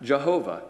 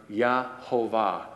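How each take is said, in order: First: "Jehovah" run together as one word, starting with a J sound; "Jehovah" with a J, syllables joined up; English Jehovah. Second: "Yahovah" broken into syllables, starting with a Y sound; "Yahovah" with a Y at the front, in separated syllables. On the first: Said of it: "where we get the word Jehovah". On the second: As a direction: sound out "Yahovah" piece by piece, Ya-ho-vah. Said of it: "we get the word Yahovah". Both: Shown as a demonstration.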